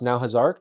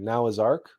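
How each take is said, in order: First: The phrase is said fast, words run together. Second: The phrase is said slowly, words kept apart.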